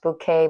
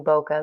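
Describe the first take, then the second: First: "bouquet" as boo-KAY, second syllable stressed; supposedly correct pronunciation. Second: "bokeh" as BOH-kuh, first syllable stressed; habitual pronunciation. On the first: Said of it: "I think it's pronounced bouquet". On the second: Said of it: "I'm so used to saying bokeh". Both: Shown as a demonstration.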